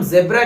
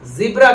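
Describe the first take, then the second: First: ज़ेब्रा with 'zeb' at the start; Indian pronunciation. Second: ज़ीब्रा with a long 'zee' at the start; American pronunciation. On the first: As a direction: use an 'e' vowel in ज़ेब्रा. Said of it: "हम ज़ेब्रा कहेंगे". (ज़ेब्रा में 'ज़े') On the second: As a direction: stretch the 'ee' in ज़ीब्रा. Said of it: "वो American ज़ीब्रा कहेंगे". (ज़ीब्रा में लंबी 'ई') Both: Shown as a demonstration.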